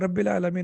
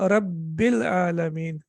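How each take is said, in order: First: The b sound is short and single. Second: The b sound is held long and doubled. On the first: The speaker calls it wrong. "आप इसको रब्बिल आलमीन नहीं पढ़ेंगे" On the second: The speaker calls it right. "बल्कि आप इसको कैसे पढ़ेंगे"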